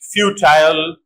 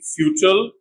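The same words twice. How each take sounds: First: The last syllable has a full 'eye' vowel. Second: The last syllable is reduced, without 'eye'.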